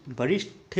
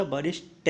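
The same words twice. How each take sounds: First: वरिष्ठ with a breathy aspirated ठ at the end; incorrect form. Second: वरिष्ठ ending in an unaspirated ट; corrected form. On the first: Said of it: "वरिष्ठ नहीं होता". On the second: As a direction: end वरिष्ठ on a hard ṭ. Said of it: "वरिष्ठ होता है". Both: Shown as a demonstration.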